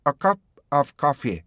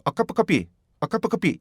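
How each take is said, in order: First: "a cup of coffee" with separate beats for the stops; correct rhythm. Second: "a cup of coffee" crammed into single beats, Korean-style; mistaken run-together. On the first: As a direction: give "cup" and "of" room before "coffee". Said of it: "이렇게 가야 되는데". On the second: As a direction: mimic a learner running "a cup of coffee" together. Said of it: "이렇게 하나로 한단 말이에요". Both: Shown as a demonstration.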